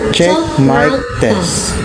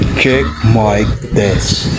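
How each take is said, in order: First: The voice is shifted high like a baby. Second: The voice is shifted very low and deep. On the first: "Baby voice" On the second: "The devil's voice"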